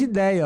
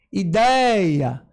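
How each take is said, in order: First: Said in the usual way. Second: "Ideia" with DEI drawn out and loud; teacher's exaggerated stress on DEI in "Ideia"; stressed second syllable. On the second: Shown as a demonstration. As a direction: swell hard on the middle syllable of "Ideia". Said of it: "é a segunda sílaba que é mais forte".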